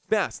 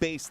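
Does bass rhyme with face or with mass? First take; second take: mass; face. First: The vowel is short, rhyming with mass. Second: The vowel is long, rhyming with face. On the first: It names the fish. The speaker calls it right. "Bass like the fish" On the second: It names the low musical sound. The speaker calls it wrong. "not bass like the music"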